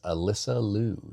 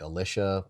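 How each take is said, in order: First: The middle consonant sounds like 's'. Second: The middle consonant sounds like 'sh'. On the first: The speaker calls it right. "we just want to correct, and it is Alyssa Liu" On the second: The speaker calls it wrong. "we mispronounced her name. I think I might have said uh, Alicia"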